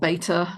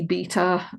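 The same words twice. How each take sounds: First: The word is said in an American accent. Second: The word is said in a non-American accent. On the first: "if you're American" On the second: "busy beta"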